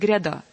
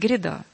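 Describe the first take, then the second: First: The unstressed vowel sounds like a clear 'ya'. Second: The unstressed vowel is reduced toward 'ye'. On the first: "Он не будет петь" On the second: "он будет петь «гряда». «Е», ближе к «Е»"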